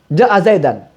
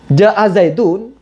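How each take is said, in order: First: The last word ends with an -an sound. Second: The last word ends with an -un sound. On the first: The noun is in the accusative case. The speaker calls it wrong. "zaidun dibacanya nasab" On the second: The noun is in the nominative case as the subject. The speaker calls it right. "zaidun itu harus dibaca rofa"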